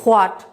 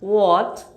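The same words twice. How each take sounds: First: The word begins with an h sound. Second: The word begins with a w sound. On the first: The speaker calls it wrong. "আমরা বলছি হোয়াট" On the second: The speaker calls it right. "No, the sounds আর হোয়াট"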